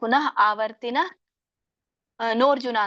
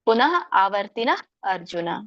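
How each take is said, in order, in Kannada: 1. ಕೊನೆಯ ಪದ 'nor' ಶಬ್ದದಿಂದ ಶುರುವಾಗುತ್ತೆ. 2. ಕೊನೆಯ ಪದ 'ar' ಶಬ್ದದಿಂದ ಶುರುವಾಗುತ್ತೆ. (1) "ಹಾಗೆ ಹೇಳ್ಬೇಡಿ" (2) "ನೋರ್ಜುನ ಆಗಲ್ಲ"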